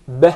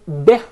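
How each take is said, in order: First: The vowel after b is an open 'e'. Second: The vowel after b is a clear 'i'. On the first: The speaker calls it wrong. "It's commonly mispronounced to be beh" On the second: The speaker calls it right. "The ba has a kasrah beneath it"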